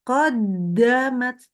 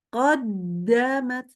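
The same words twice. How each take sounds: The two takes are said the same way.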